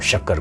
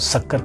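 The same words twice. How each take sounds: First: The word begins with an 'sh' sound. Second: The word begins with a plain 's' sound.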